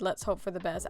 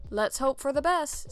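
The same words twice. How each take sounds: First: Lower, softer flat "Let's hope for the best"; deadpan quote. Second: Slightly raised, hopeful doctor's read of "Let's hope for the best"; doctor's line. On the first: Retold or imitated. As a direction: quote "Let's hope for the best" dryly under your breath. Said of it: "if any trained professional ever said". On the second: Acted. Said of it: "said the doctor".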